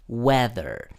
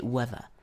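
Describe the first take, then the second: First: It is said with an American accent. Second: It is said with a British accent.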